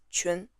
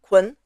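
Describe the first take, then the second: First: "qun" with a soft ch-like q and a yun ending; corrected "qun", q like ch, not k; native Mandarin pronunciation. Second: "kun" with a hard English k sound; wrong version "kun", hard k instead of Chinese q; anglicized mispronunciation. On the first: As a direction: softly give the Mandarin "qun". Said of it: "but it's not". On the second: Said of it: "People would make it like kun". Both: Shown as a demonstration.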